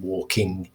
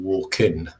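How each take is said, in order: First: The word ends with the ng sound. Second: The word ends with an n sound. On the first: The speaker is middle class. "pronouncing this in an R P way" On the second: The speaker is working class. "doing an N sound rather than the velar nasal sound"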